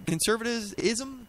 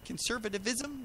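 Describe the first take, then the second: First: "conservatism" said slowly and softly, tripping on the ending; softer, halting "conservatism" with a fumbled "-ism"; stumbling over the word. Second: "conservatism" very quiet and slow, sounding out each syllable; hushed, higher, drawn-out try at "conservatism"; careful second attempt. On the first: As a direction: feel your way uncertainly through the end of "conservatism". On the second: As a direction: quietly test out "conservatism" with an extra "-iv-" before "-ism". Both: Real, not acted. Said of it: "That was a hard word".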